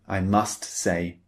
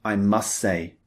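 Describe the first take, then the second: First: "must" with a clearly released final T, said slowly; T pronounced in must. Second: "must" with no final T, running straight into "say"; T dropped in must. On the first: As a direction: say "must" and hit the T at the end clearly. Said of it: "We don't often say". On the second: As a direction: drop the T so "must" blends into "say". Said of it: "We simply say". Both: Shown as a demonstration.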